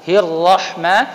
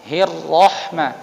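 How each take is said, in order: Both takes have the same delivery.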